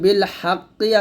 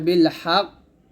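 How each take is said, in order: First: The word ends with a final vowel. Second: The word ends in a strongly bouncing consonant. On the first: "বিল হাক্কি আছে" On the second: "অধিক জোরালো কলকলা করে থামুন"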